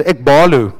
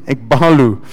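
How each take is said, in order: First: Ekbalu said in a broad Afrikaans accent. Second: Ekbalu again, lower, in Afrikaans accent. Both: Shown as a demonstration. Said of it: "I'm gonna say it now with my Afrikaans accent".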